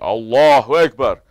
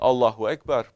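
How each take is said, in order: First: It is said proudly, full of pride. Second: It is said plainly, without pride.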